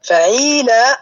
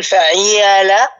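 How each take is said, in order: First: فعيلة with a clean long ee, fa-ʕee-laa, pitched up; kasra becomes yaa. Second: فعيلة forced into fa-ʕi-yaa-laa, an awkward ee gliding into long aa; kasra forced onto alif. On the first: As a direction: demonstrate فعيلة with a drawn ee and raised end. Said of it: "سيخرج عندي هكذا". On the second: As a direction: strain فعيلة out slowly with both ee and aa. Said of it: "تلفظ الكسرة مع الألف". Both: Shown as a demonstration.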